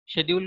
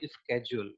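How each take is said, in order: First: It is said with a non-American accent. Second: It is said with an American accent.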